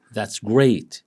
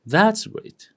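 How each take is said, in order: First: "That's great" with GREAT falling; plain falling "That's great", weight on great; different intonation. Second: "That's great" high, THAT'S punched; high-pitched emphatic "That's great"; different intonation. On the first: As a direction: land on great with a falling tune. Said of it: "The way I express myself is different". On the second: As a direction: start That's high, then swoop on great. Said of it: "different from". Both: Shown as a demonstration.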